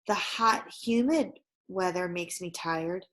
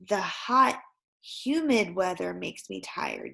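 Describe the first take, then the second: First: There is a pause after the word humid. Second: There is no pause after the word humid. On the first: The speaker calls it wrong. "I'm doing a pause after humid" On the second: The speaker calls it right. "Yes, there it is"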